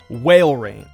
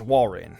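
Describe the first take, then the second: First: The first vowel is a long A sound. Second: The first vowel is a short A sound. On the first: The speaker calls it wrong. "I had a really hard time distinguishing long A and short A sounds" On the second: The speaker calls it right. "I know it's pronounced wall rain"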